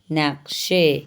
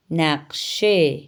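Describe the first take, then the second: First: Said in the usual way. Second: نقشه said very slowly, syllable by syllable: naq-she; slow model word. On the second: Shown as a demonstration. Teacher models نقشه slowly for Urdu-speaking students. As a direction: draw out نقشه clearly for learners. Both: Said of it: "چمچ کو فارسی میں کہتے ہیں".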